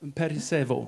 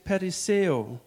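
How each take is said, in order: First: The word ends with a v sound. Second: The word ends without a v sound. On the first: The speaker calls it right. "Like vo" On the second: The speaker calls it wrong. "Do you know how to pronounce that better?"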